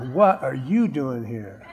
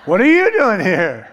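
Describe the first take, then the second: First: Softer, laughing disbelief; half-laughing, quietly stunned; quiet mock astonishment with a chuckle; amused shock. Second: Higher, louder laughing disbelief; hammed-up shocked outburst through a laugh; loud mock shock. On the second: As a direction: blurt it out in comic astonishment. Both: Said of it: "They're gonna go".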